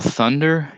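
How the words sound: It begins with a soft TH sound. "like Americans would say thunder"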